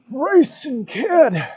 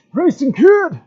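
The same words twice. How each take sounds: First: Put-on very slow, drawn-out old man call; old man Odin voice. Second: Put-on high, loud old man cry; old man Odin voice. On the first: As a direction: stretch the name out like an old god. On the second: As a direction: shout the name like an ancient god. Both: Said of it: "You like my old man Odin voice?".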